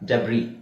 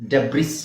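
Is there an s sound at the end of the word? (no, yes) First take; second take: no; yes. First: The word ends without any s sound. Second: The word ends with an audible s sound. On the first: The speaker calls it right. "ಎಸ್ silent" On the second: The speaker calls it wrong. "ಡೆಬ್ರಿಸ್ ಅಲ್ಲ"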